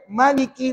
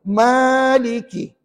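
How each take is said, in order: First: The first vowel is held short. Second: The first vowel is held long. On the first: It follows the reading tradition used in some other countries. "ma tu pendek" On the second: It follows the reading tradition used locally and in most countries. "Ma tu dua harakat"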